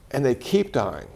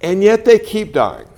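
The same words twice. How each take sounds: First: Softer repeat, stress on "keep"; quiet echo. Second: Louder and higher, stress on "they"; emphatic first take. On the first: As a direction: drop the voice and lean gently on "keep". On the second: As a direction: say "they" loud and high, then let the line fall. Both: Shown as a demonstration.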